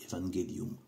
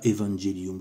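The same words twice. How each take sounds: First: It uses the classical Latin pronunciation. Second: It uses a non-classical Latin pronunciation. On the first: The speaker calls it right. "je le prononce avec le, le latin classique" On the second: The speaker calls it wrong. "Je dis pas evangelium"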